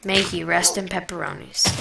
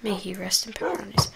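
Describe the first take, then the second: First: Quiet, mock mournful farewell; mock solemn eulogy. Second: Breathy mock solemn whisper. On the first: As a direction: play it like a fake funeral. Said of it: "a proper remorseful service". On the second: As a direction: whisper the farewell at the grave. Repeating the eulogy whispered.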